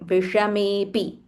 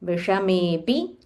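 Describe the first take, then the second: First: The two words run together as one. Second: The same.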